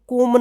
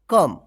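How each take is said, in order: First: The vowel sounds like 'oh'. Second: The vowel sounds like 'uh'. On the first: The speaker calls it wrong. "इसको कोम नहीं पढ़ेंगे" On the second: The speaker calls it right. "इसको कम पढ़ेंगे"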